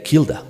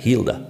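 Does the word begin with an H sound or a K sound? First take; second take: K sound; H sound. First: The word begins with a hard K sound. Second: The word begins with a breathy H sound. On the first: "la pronunciaban como una K" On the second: "esa H aspirada"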